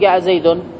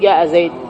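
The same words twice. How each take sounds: First: The last word ends with a short vowel. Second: The last word ends without a vowel. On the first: The speaker calls it wrong. "العرب ما تقول جاء زيد" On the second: The speaker calls it right. "وإنما يقولون جاء زيد"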